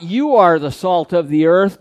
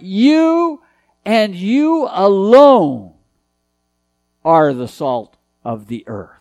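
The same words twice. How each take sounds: First: Said in the usual way. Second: "you and you alone" said slowly, "alone" leaned on hard; stress on you alone. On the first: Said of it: "is not". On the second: Shown as a demonstration. Preacher stressing to the congregation that "you and you alone" are salt. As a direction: dwell on "you and you alone", push "alone". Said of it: "it uses an emphatic pronoun".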